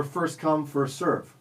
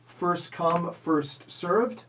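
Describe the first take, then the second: First: "serve" ending on the V sound. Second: "served" ending in a clear D sound; final D on served. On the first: Quiz host offering second choice, "serve" without final D. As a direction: stop "serve" at v, no d. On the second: Quiz host offering first choice, "served" with final D. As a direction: finish "served" with a voiced d. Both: Shown as a demonstration. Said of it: "Is the correct phrase".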